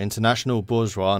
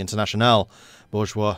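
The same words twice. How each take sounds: First: Said in the usual way. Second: Put-on light French accent on "international bourgeois". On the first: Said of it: "not having to read that in a French accent". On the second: Game player reading event text, light French accent. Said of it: "read that in a French accent".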